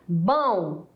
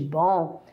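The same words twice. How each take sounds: First: It is said in a colloquial, socially marked way. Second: It is said in the standard way. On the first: "em vez de bom" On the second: "em vez de"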